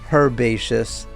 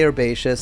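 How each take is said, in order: First: It is said with a British pronunciation. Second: It is said with an American pronunciation. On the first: "I know British people say herbaceous" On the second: "Americans say herbaceous"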